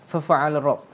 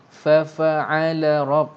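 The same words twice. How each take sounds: First: The syllables are rushed together quickly. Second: Each syllable is said slowly and separately. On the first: The speaker calls it wrong. "kalau salah ... kalau kita cepat sangat" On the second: The speaker calls it right. "Macam mana cara yang betul?"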